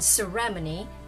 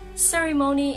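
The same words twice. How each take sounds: First: It is said with a British pronunciation. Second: It is said with an American pronunciation. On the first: "that is how the British say it" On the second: "ceremony is the American pronunciation"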